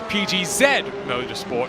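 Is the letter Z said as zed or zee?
zed. The letter Z is said as zed. The speaker calls it right. "it is"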